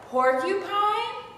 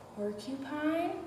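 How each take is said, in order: First: The word is said loud. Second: The word is said low.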